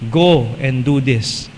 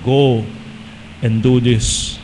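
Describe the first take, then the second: First: It is said in the speaker's ordinary voice. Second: It is said in a deliberately altered voice.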